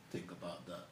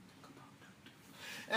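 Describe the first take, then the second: First: Said in the usual way. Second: Slow, hushed whisper. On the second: Real, not acted. Host urging viewers to consider their daughters, whispered. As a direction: let it sink in as a drawn-out whisper. Whispered echo of the closing appeal.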